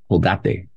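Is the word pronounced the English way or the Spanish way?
Spanish. The word is said with a Spanish pronunciation. "Colgate in Spanish means go hang yourself"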